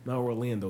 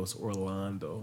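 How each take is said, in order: First: "Orlando" with a short a, as in "land"; usual pronunciation. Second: "Orlando" slowed, with a long ah, "or-LAHN-do"; emphasized pronunciation. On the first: The rejected version of the husband's name, "Orlando" with short a. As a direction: say "Orlando" the ordinary American way. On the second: Imitating a wife correcting her husband's name, "Orlando" with long ah. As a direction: draw out the ah in "Orlando", low and soft. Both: Retold or imitated. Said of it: "she emphasized that".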